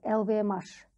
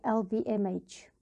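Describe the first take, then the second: First: The letters are spoken with French letter names. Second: The letters are spoken with English letter names. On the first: "на французский манер" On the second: "на английский манер, как я сейчас произношу"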